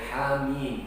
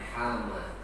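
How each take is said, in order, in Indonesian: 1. Kata ini berakhir dengan bunyi mim panjang. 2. Kata ini berakhir dengan vokal a pendek. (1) "dibacanya Hamim" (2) "bukan Hama"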